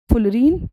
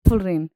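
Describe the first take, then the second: First: "फुलरीन" said as "ful-reen"; long ee at the end of "फुलरीन"; fullerene with EEN. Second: "फुलरेन" said as "ful-rayn"; e vowel at the end of "फुलरेन", not ee; fullerene with AYN. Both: Shown as a demonstration. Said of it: "कुछ भी आप इसको pronounce कर सकते हैं".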